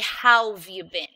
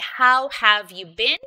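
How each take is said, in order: First: The word 'have' is contracted to 've. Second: The word 'have' is said in full. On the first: "These are what we call contractions" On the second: "usually you would say"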